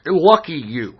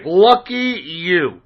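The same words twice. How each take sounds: First: Said in the usual way. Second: Slow drawn-out lucky you. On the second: Real, not acted. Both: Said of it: "if you don't know who Masked Pony is".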